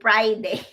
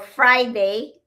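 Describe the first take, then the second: First: The word begins with a P sound. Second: The word begins with an F sound. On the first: "Filipinos normally we don't have F" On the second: "Or Friday"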